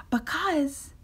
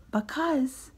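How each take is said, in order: Both takes have the same delivery.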